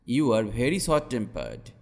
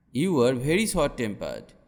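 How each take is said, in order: Both takes have the same delivery.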